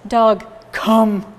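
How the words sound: It is said in a flat, gloomy tone.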